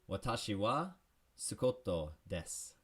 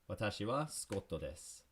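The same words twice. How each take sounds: First: It is said slowly. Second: It is said at regular speed.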